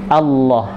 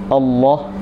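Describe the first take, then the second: The two takes are said the same way.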